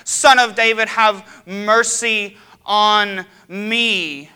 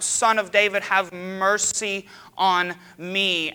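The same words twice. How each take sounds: First: Very loud, high, slow desperate shout; crying out louder. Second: Loud, slow, stretched-out cry. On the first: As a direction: shout it over the whole crowd, stretching every word. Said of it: "He cries out louder". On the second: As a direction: plead loudly, dragging each word. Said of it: "he cries out". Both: Retold or imitated.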